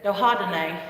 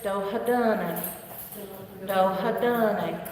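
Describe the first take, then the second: First: "Dohadane" said quickly, without the long dun; mispronounced the way the student said it. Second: "Dohadane" slowly, with the dun stretched long; correct, elongated pronunciation. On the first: Retold or imitated. Teacher imitating a student's rushed "Dohadane". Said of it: "That's how he said it". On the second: Shown as a demonstration. Teacher modelling "Dohadane" slowly for the class. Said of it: "It's a little more elongated on that dun".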